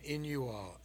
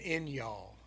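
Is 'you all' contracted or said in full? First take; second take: full; contracted. First: 'You all' is said as two separate words. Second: 'You all' is squeezed into one syllable, y'all.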